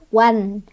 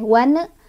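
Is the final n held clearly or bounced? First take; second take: clear; bounced. First: The final n is held clearly and steadily. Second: The final n bounces off at the end. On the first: The speaker calls it right. "nun sukunnya ini dibaca jelas" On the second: The speaker calls it wrong. "nggak boleh mantul, nggak boleh wan"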